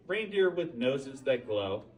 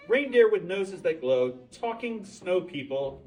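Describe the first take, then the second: First: Said in the usual way. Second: Louder and higher, full of wonder; marvelling at Christmas miracles, louder; excited. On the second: A narrator's reading. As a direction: lift it into an amazed exclamation. Repeats list with building wonder.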